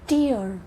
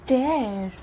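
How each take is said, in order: First: The vowel sounds like the word 'ear'. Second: The vowel sounds like the word 'air'. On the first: It means a drop from the eye. "आंसू को हम बोलते हैं टीयर, ट टी ईयर" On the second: It means to rip something. "जो फाड़ने वाला होता है उसे हम बोलते हैं ट एयर"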